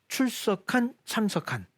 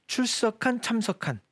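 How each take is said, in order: The two takes are said the same way.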